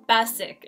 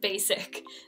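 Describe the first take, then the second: First: The first vowel is not a long A. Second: The first vowel is a long A sound. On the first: The speaker calls it wrong. "So it's the same mistake" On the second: The speaker calls it right. "you just want to show them that long A sound"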